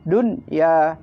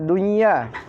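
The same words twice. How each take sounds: First: The n is pronounced clearly before the y. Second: The n merges into the following y. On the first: The speaker calls it right. "harus dibaca izhar" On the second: The speaker calls it wrong. "ini tidak boleh dibaca"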